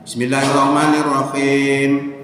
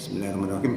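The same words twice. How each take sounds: First: It is recited aloud and clearly. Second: It is recited quietly and softly. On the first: The opening is recited audibly. "Dibaca jelas" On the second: The opening is recited silently.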